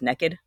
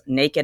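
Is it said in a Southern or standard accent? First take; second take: Southern; standard. First: It is said in her husband's Southern accent. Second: It is said in a standard accent.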